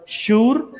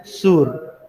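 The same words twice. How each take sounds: First: शूर lifted high with a clear sh. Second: सूर dropped back down with a plain s; सूर said low. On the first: Teacher contrasting शूर with सूर for the class, high. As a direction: pitch शूर up and hiss the sh. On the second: Teacher contrasting सूर with शूर for the class, low. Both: Shown as a demonstration. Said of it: "उतना ज्यादा फर्क नहीं है".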